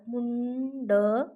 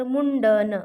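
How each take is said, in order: First: मुंडन drawn out very slowly, न sound of the anusvara held; slow demo pronunciation. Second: Said in the usual way. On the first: Shown as a demonstration. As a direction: stretch मुंडन slowly to show the न. (मुंडन सावकाश, अनुस्वार लांबवून) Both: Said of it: "मुंडन म्हणताना मुंड".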